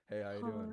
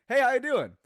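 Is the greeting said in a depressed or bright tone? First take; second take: depressed; bright. First: It is said in a dead, depressed tone. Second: It is said in a bright, cheerful tone.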